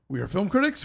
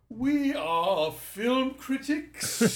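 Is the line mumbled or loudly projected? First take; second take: mumbled; projected. First: The words are mumbled quietly and swallowed. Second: The words are loudly projected from the diaphragm. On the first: "you just swallowed whatever that was" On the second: "I'm delivering to the mezzanine. Using my diaphragm"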